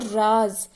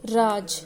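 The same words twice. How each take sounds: First: "राज" as raaz, ending on a buzzing z; teacher's emphatic raaz for "राज"; z-sound demo. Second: "राज" as raaj, ending on j; teacher's clear raaj for "राज"; j-sound demo. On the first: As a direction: model "राज" loudly with final z, not j. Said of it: "और एक होता है राज". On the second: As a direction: model "राज" with a plain final j, no buzz. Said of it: "राज का अर्थ यहाँ पर है शासन का". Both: Shown as a demonstration.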